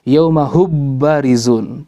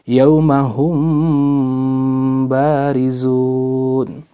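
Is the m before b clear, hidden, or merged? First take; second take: merged; hidden. First: The m is merged fully into the b. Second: The m is softened, halfway between clear and merged. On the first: The speaker calls it wrong. "Kalau dibaca idgham" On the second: The speaker calls it right. "tapi dibaca ikhfa antara keduanya"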